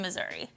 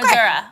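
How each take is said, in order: First: The word ends with an 'ee' sound. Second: The word ends with an 'uh' sound. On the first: This is how West Coast people say it. "I'm going to stick to Missouri" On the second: This is how people from the state say it. "With A"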